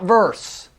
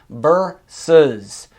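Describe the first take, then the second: First: The word is said with one syllable. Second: The word is said with two syllables. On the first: The speaker calls it wrong. "Not verse" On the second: The speaker calls it right. "You're supposed to say versus"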